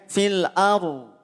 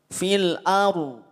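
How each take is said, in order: Both takes have the same delivery.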